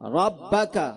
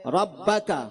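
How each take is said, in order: Both takes have the same delivery.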